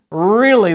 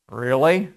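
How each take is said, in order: First: The word is said emphatically with a falling pitch. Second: The word is said as a question with rising pitch. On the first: It truly happened. "one's emphatic" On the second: The speaker doubts it. "One's a question"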